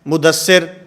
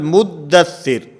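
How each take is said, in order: First: The middle consonant is said single, not doubled. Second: The middle consonant is held doubled, with gemination. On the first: It is said as an everyday personal name. The speaker calls it wrong. "अब मुद किसी का नाम है तो हम क्या कहते हैं" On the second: It is recited as the Quranic word. The speaker calls it right. "इन दोनों के ऊपर तशदीद है"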